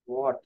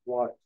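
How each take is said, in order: No difference in how they are said.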